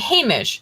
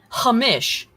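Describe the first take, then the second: First: The name is said with a plain English sound. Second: The name is said with a Middle Eastern sound. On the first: The speaker calls it right. "Hamish, not Hamish" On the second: The speaker calls it wrong. "puts like a a, a like Middle Eastern thing"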